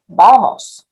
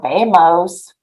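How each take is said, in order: First: It is pronounced with native Spanish sounds. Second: It is pronounced with English-like sounds. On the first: The speaker calls it right. "Like we say vamos" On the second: The speaker calls it wrong. "we don't say vamos"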